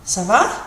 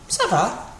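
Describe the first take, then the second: First: "Ça va" asked, rising on va; question intonation. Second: "Ça va" answered, falling on va; reply "Ça va", bringing the end down; answer intonation. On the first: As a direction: ask "Ça va" with a clear lift at the end. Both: Shown as a demonstration. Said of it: "with a different intonation".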